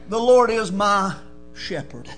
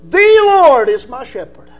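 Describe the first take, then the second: First: The stress falls on the word "shepherd". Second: The stress falls on the word "The".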